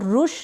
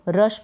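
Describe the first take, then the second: First: The vowel sounds like 'oo' in 'put'. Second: The vowel sounds like 'uh' in 'cut'. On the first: The speaker calls it wrong. "इसको रुश नहीं पढ़ेंगे" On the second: The speaker calls it right. "इसको हम रश पढ़ेंगे"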